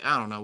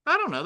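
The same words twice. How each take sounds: First: Said in the usual way. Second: Sudden high-pitched unsure voice; high squeaky. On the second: Real, not acted. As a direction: pop it up high and playful. Unsure about the size, playful.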